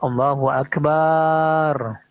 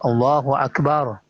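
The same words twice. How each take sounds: First: The vowel in the last syllable is drawn out. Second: The vowel in the last syllable is short. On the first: It turns into a word meaning drum. The speaker calls it wrong. "Jadi jangan dipanjangkan. Ini kalau dipanjangkan ya merusak" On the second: God is the greatest. The speaker calls it right. "Allah Maha besar"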